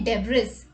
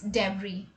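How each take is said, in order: First: The final s sound is pronounced. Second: The final s sound is left silent. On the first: The speaker calls it wrong. "we don't say debris" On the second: The speaker calls it right. "the letter which is silent is S"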